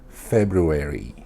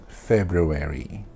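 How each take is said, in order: The two takes are said the same way.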